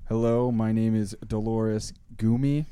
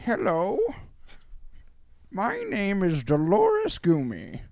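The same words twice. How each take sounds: First: It is read in the speaker's normal voice. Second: It is read in a put-on grandma voice.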